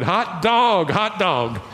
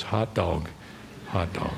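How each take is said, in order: First: Higher-pitched, jubilant mock shout; retold joyful shout. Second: Low, soft echo of the outburst; hushed retelling. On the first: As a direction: act out his overjoyed outburst, voice lifted. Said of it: "threw both hands in the air, and shouted". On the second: Retold or imitated. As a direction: drop the voice right down, understated. Storyteller quietly echoes the retold shout.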